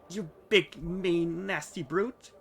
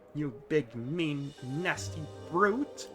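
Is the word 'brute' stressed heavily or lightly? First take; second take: lightly; heavily. First: The word brute is stressed lightly. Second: The word brute is stressed heavily.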